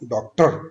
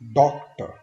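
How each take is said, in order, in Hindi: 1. Stress दूसरे syllable पर है। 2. स्ट्रेस पहले सिलेबल पर है। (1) "डॉक्टर हम नहीं बोलेंगे कि" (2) "फर्स्ट सिलेबल पे हमने स्ट्रेस देना है"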